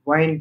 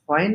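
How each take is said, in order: First: It starts directly with w, no h sound. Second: It starts with an audible breathy h sound. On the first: The speaker calls it right. "এইচটাকে কাট করে দিতে হবে, তাহলে when হবে।" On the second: The speaker calls it wrong. "when না বলে"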